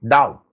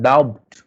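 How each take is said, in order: First: "Doubt" said as "dowt", no b; silent B. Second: "doubt" said as "dowbt", with a b before the t; sounded B. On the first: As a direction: go straight from vowel to t in "Doubt". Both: Shown as a demonstration. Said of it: "It's not doubt".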